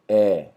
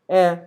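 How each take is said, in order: First: The vowel is less open, said without smiling. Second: The vowel is much more open, said smiling. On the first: This is how most of Brazil says it. "não fala um é, é, é, como no restante do Brasil" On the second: This is how someone from Rio says it. "ele é bem mais aberto"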